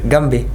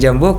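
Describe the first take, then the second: First: The word begins with a hard g sound. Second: The word begins with a j sound. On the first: This is the Egyptian pronunciation. "kalau di di Mesir" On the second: This is the local pronunciation here. "kalau kita di sini"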